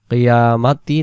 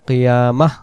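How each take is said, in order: First: The word ends with a 'ti' sound. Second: The word ends with a soft 'h' sound. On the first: The reading continues without a stop. "কিয়ামাতি না বলে" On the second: The reader stops at this word. "কিয়ামাহ বলবো"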